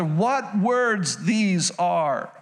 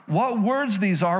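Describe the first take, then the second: First: Very slow, marvelling delivery; slow amazed reading. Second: Said in the usual way. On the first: Acted. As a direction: stretch each word out slowly in wonder. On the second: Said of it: "Watch this".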